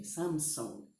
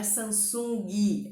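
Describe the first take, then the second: First: "Samsung" ending on ng, no added vowel; consonant ending. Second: "Samsung" with an I added, "sam-SUN-ghi"; Brazilian extra I. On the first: Teacher corrects Brazilian learners, "Samsung" with no final I. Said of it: "elas têm o som delas mesmo". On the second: Teacher mimics Brazilian learners' mistake, "Samsung" with a final I. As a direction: stretch "Samsung" into three syllables ending in a loud ghee. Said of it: "tendência a colocar a letra I no final". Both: Shown as a demonstration.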